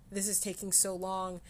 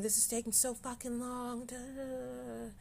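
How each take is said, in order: First: Said in the usual way. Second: Higher, softer frustrated whine; mock-exasperated grumble, trailing into da da da. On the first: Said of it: "Or even during crying". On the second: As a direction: whine it like you're fed up and impatient.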